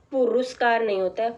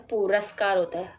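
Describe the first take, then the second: First: पुरस्कार with a full "u" in the middle, pu-ru-skar; teacher reading out the misspelt पुरस्कार, pu-ru-skar; wrong spelling said aloud. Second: पुरस्कार with a short neutral middle vowel, pu-rə-skar; teacher giving the right पुरस्कार, pu-rə-skar; correct spelling said aloud. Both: Shown as a demonstration.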